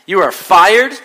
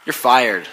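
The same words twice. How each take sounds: First: Higher, louder, each word hammered; furious firing. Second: Said in the usual way. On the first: Acted. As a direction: blow up at the employee. Boss repeats, escalating.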